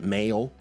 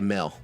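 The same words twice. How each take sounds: First: The word is said fully with its ending. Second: The word is clipped without finishing its ending. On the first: "is how you would say it" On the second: "I never finish like words"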